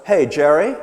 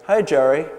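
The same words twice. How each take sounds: First: "Hey, Jerry" ending in a questioning rise; unsure, lift the end of Jerry; louder Hey Jerry with a rising, uncertain tune; upward intonation. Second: Said in the usual way. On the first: Shown as a demonstration. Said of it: "with upward intonation". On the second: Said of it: "Notice that she didn't say".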